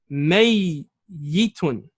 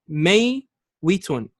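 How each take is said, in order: First: The middle consonant is a single y sound. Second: The middle consonant is a w sound. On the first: This is the form after the letter swap. "We change the wow into ya" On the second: This is the original underlying form. "The origin of this word is may witun, kasra on the wow"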